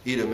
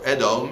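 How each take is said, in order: First: The name is given its English pronunciation. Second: The name is given its Hebrew pronunciation. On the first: "in English" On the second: "in Hebrew"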